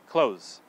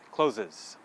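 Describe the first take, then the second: First: The word is said with one syllable. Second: The word is said with two syllables. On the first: The speaker calls it right. "We pronounce it close" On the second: The speaker calls it wrong. "are tempted to say clothes, closes"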